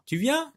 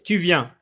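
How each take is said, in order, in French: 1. Elle est dite avec une intonation interrogative. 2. Elle est dite à plat, comme une simple affirmation. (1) "il y a une intonation" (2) "Ah non, c'est pas comme ça qu'on doit les lire"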